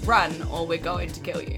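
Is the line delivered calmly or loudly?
calmly. The line is said calmly, without anger. "she's not even angry about it"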